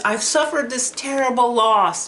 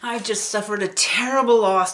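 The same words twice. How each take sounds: First: Higher, louder, voice pushed by grief; a grieving father choking out the words; sobbing father. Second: Higher, louder, tearful retelling; barely holding back sobs; sobbing father. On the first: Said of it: "he's crying and he's sobbing". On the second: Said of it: "tears were streaming down his face". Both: Retold or imitated.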